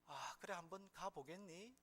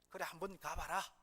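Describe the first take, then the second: First: It is said in a sad, mournful voice. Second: It is said in a strong, encouraging voice.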